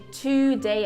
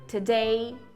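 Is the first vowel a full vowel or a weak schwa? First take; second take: full vowel; schwa. First: The first vowel is a full, clear vowel. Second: The first vowel is a weak, neutral schwa. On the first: The speaker calls it wrong. "em vez de today" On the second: The speaker calls it right. "é today"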